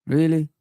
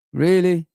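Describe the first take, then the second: No difference in how they are said.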